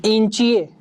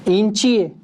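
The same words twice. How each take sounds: No difference in how they are said.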